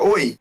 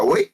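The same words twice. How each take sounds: First: Said in the usual way. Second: "oi" lifted into a puzzled question. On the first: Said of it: "você tá cumprimentando uma pessoa". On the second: Shown as a demonstration. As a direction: make "oi" ask for a repeat, not greet. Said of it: "aquilo não significa cumprimentar uma pessoa".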